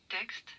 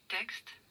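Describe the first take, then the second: Both takes have the same delivery.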